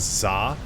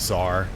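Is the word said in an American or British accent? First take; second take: British; American. First: It is said with a British accent, without r. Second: It is said with an American accent, with r. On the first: It sounds like slang for pizza. "because of his, you know, British accent, it really sounds like he says za" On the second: It names the Russian ruler's title. "I didn't realize it was actually called a czar"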